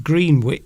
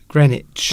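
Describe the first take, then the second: First: The W is pronounced, with a long E. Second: The W is silent, with a short E. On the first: The speaker calls it wrong. "It looks like it's Greenwich" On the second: The speaker calls it right. "the W is silent"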